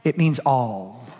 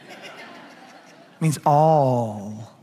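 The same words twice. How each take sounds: First: Slow reveal. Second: "It means all" stretched very slowly, each word held; drawn-out reveal. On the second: Pastor drawing out the answer to his congregation, very slowly. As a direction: drag out "all" for the punchline. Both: Shown as a demonstration. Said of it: "This is gonna blow your mind".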